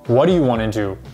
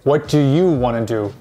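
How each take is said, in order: First: 'Do you' is reduced and blended into one sound. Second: 'Do you' is said fully as two clear words. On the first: The speaker calls it right. "We say" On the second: The speaker calls it wrong. "we don't say"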